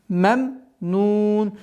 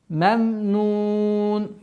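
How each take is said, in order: No difference in how they are said.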